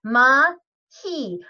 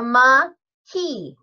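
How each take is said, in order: No difference in how they are said.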